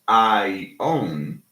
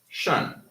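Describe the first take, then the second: First: The ending is said as two separate vowel syllables. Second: The ending is said as one single syllable. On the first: The speaker calls it wrong. "We don't say I own" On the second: The speaker calls it right. "we say shun. So these two become one vowel sound"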